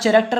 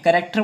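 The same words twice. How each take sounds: First: The word begins with a 'ch' sound. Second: The word begins with a 'k' sound. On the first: The speaker calls it wrong. "ये हमारा कैरेक्टर नहीं है" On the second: The speaker calls it right. "यहाँ पर एच हमारा silent रहता है"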